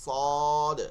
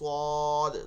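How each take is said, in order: No difference in how they are said.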